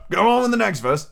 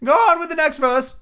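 First: Raised but milder impatient order. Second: Very high, loud turtle voice; Mock Turtle figure. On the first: A narrator's reading. Griffin repeating the order to Alice, impatiently. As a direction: urge it on with a touch of impatience. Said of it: "repeated impatiently". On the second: Mock Turtle urging Alice on, high character voice.

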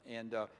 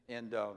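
No difference in how they are said.

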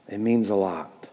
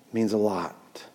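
No difference in how they are said.

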